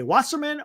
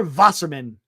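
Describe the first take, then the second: First: "Wasserman" starting with an English w sound; English W pronunciation. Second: "Wasserman" starting with a v sound; German V pronunciation. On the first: Host offering ways to say the agency's name, English W. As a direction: say "Wasserman" with a plain W. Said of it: "You could say Wasserman or Wasserman". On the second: Host offering the other way to say the name, V sound. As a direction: say "Wasserman" as "Vasserman". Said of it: "however you want to pronounce it". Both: Shown as a demonstration.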